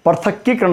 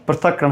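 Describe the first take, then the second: First: पृथक्कीकरण quickly, with extra "kee"; wrong form. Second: पृथक्करण as "prithak-karan", no kee; correct form. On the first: Teacher repeating the mistaken word, extra kee. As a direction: put a long kee before करण in पृथक्कीकरण. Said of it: "पृथक्कीकरण नहीं होता". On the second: Teacher repeating the correct word, kee left out. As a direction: say पृथक्करण with doubled k, straight into karan. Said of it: "पृथक्करण होता है". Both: Shown as a demonstration.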